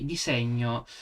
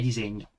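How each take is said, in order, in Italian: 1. La parola ha una pronuncia dell'Italia meridionale, alla barese. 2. La parola ha una pronuncia dell'Italia settentrionale, alla lombarda. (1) "magari l'ha scritto uno di Bari" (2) "da me è disegno"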